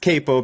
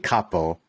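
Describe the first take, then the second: First: It is said with the American pronunciation. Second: It is said with the Italian pronunciation. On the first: The speaker calls it wrong. "everyone in the States says capo" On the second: The speaker calls it right. "supposed to be pronounced, ironically, capo, which is Italian"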